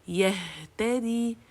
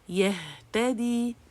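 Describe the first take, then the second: Both takes have the same delivery.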